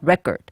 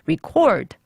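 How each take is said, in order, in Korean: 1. 강세는 첫 번째 음절에 있어요. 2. 강세는 두 번째 음절에 있어요. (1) "첫 번째는 앞에 갔나요? 뒤에 갔나요? / 앞에요. / 잘하셨습니다" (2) "recording 할 때는 어디에 갔죠? / 두 번째요"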